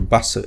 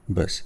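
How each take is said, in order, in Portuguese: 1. É dita com pronúncia japonesa. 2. É dita com pronúncia inglesa.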